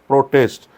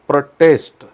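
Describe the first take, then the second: First: The stress is on the first syllable. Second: The stress is on the second syllable. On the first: It is a noun meaning opposition. "Noun म्हणून त्याचा उच्चार होतो protest" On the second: It is a verb meaning to oppose. "As a verb म्हणून त्याचा उच्चार हा protest नाही होत"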